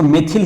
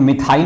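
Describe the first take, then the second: First: It is said as 'meth-il' with short vowels. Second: It is said as 'mith-ail' with a long 'ai'. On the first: This is how the textbook gives it. "NCERT book में ... मेथिल ही pronounce किया गया है" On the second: This is how many other places say it. "प्रोनाउंस के रूप में मिथाइल भी बहुत जगह पे कहते हैं"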